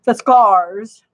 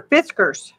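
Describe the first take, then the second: First: "Fiskars" said as fuh-SKARZ; "Fiskars" with a full, stressed "ah" in the ending; stressed second syllable. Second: "Fiskars" said as FISS-kerz; "Fiskars" ending in a short "kerz"; unstressed second syllable. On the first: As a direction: hit the end of "Fiskars" like "cars". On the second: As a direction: say "Fiskars" with stress up front and a reduced "-kers". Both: Shown as a demonstration. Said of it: "depending on how you wanna pronounce it".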